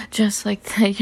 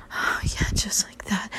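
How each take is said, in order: First: Said in the usual way. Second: Whispered. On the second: Acted. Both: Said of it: "same words whispered then voiced".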